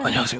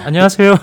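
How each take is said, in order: First: It is said in a deep, masculine voice. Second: It is said in a light, high voice.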